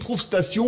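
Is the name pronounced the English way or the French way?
French. The name is pronounced the French way.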